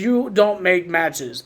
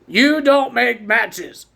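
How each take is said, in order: First: It is said at normal speed. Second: It is said slowly.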